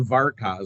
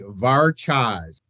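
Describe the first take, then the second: First: The middle consonant is a hard k sound. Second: The middle consonant is a ch sound. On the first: The speaker calls it wrong. "a lot of people have look at it and they want to say Varkaz" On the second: The speaker calls it right. "It's it's actually Varchaz"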